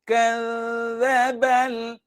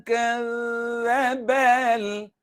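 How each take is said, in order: Both takes have the same delivery.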